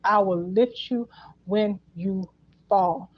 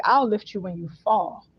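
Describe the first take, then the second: First: Slow, spaced-out words ending on "fall"; stress on fall. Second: Said in the usual way. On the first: Retold or imitated. Repeating their promise to you, slow stress on fall. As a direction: take your time, setting "fall" apart at the end. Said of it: "they emphasize fall again". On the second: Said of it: "So they're like".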